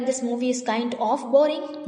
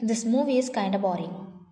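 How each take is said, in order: First: The words 'kind of' are said in full. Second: The words 'kind of' are reduced to 'kinda'. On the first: The speaker calls it wrong. "इसको ये बोलने के बजाय" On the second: The speaker calls it right. "You can say"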